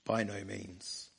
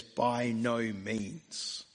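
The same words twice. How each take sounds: First: Softer, lower, slow repeat of "By no means"; quiet echo. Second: Very slow, weighty "By no means"; emphatic no. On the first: Shown as a demonstration. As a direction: let "By no means" sink in softly. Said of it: "his emphatic no". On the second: Acted. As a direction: lean hard on "no". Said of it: "he says".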